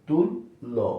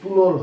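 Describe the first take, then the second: First: There is a brief stop before the doubled sound. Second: The word runs together without a break. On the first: The speaker calls it right. "প্রথম বর্ণের সামনে এসে আমরা থামবো" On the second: The speaker calls it wrong. "এখন আমরা যদি স্বাভাবিকভাবে বলি তুলল হয়, কিন্তু না"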